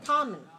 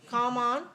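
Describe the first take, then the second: First: The second syllable has a weak, reduced vowel. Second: The second syllable has a full, clear vowel. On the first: The speaker calls it right. "the other one mm, very weak" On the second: The speaker calls it wrong. "that's not English"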